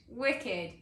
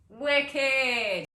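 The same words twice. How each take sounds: First: Said in the usual way. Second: Louder, higher, drawn-out cheer; exuberant exclamation. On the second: Acted. Celebrating free dental coverage, exuberant drawn-out cheer. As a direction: stretch it out in loud delight.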